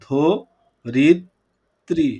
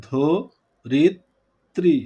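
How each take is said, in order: First: The word is said slowly, syllable by syllable. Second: The same.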